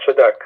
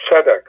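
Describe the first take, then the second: First: "tzedek" wrongly stressed on DEK; tze-DEK, first syllable reduced; stress on last syllable. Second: "tzedek" stressed on TZE, second syllable light; TZE-dek, accent up front; stress on first syllable. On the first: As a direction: push the accent onto the end of "tzedek". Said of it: "not tzedek". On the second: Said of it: "the stress is in the first syllable". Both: Shown as a demonstration.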